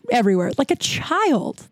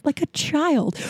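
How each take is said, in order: First: Said in the usual way. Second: High comic repeat. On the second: Real, not acted. Repeat pitched way up for comic effect.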